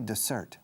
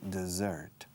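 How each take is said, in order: First: The middle consonant is a hissing s sound. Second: The middle consonant is a buzzing z sound. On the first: The speaker calls it wrong. "We don't say dessert" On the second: The speaker calls it right. "We say dessert"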